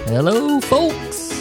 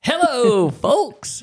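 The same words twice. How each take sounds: First: It is said with low energy. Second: It is said with high energy.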